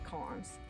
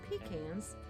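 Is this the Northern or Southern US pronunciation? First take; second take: Northern; Southern. First: It is said the Northern US way. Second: It is said the Southern US way. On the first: "up north, we call them pecans" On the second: "In the South, they are pecans"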